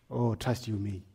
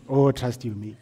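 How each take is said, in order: First: Quiet aside. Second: Said in the usual way. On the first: Real, not acted.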